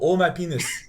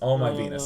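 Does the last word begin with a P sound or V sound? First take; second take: P sound; V sound. First: The last word begins with a P sound. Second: The last word begins with a V sound. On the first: It imitates how Korean speakers say the title. "because of the Korean accent, they do pronounce it penis. They go" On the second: It gives the title's actual name.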